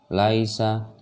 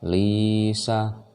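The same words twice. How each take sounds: First: "laisa" with a brief lai glide; short diphthong. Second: "Lisa" with the i held long; long vowel. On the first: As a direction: chant "laisa" without holding it. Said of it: "oh ini tidak panjang". ("laisa" tidak dibaca panjang) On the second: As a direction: stretch "Li" on a chanted note. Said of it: "oh ini panjang". ("Lisa" dengan li dipanjangkan) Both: Shown as a demonstration.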